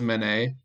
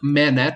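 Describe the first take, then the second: First: The name is said like the painter's name. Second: The name is said like 'little man', ending '-ette'. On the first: The name is taken to be the painter's. "I thought it was Manet, like, I was saying, like, the painter" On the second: The name is taken to mean a little man. "I'm reading it now like Manette, like little man"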